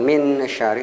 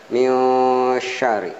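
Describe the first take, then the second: First: The first word ends in a clear n. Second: The first word ends in a hidden nasal. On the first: The speaker calls it wrong. "bukan min syari" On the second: The speaker calls it right. "tapi mil syari"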